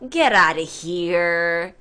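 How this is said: The pitch drops low through the phrase. Stop talking nonsense. "말투가 약간 밑으로 내려가요"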